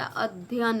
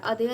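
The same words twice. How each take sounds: First: अध्ययन with "dhy" and a second y sounded; corrected form. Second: अध्ययन as "adhayan", without the dhy cluster; wrong form. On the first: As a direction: sound both y's in अध्ययन. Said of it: "दो बार यह रहेगा". (अध्ययन में य दो बार सुनाएँ) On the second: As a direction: skip the first y in अध्ययन. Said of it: "अध्ययन नहीं होता". (अध्ययन को "अधयन" बोलें) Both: Shown as a demonstration.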